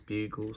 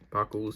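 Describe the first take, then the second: First: The first vowel is long, like in cute. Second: The first vowel is short, like in bug. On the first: "my mum says cute, uh, bugles" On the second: "I always call them buggles"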